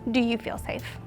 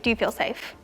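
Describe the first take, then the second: First: It is asked slowly and carefully. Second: It is asked fast and carelessly.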